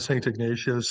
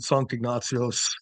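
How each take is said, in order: First: The name is said with an English pronunciation. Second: The name is said with a Swedish pronunciation. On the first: "lots of people pronounce it uh" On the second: "the Swedes pronounce it"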